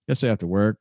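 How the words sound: The word work carries the main stress. "the word I would probably stress here honestly be work"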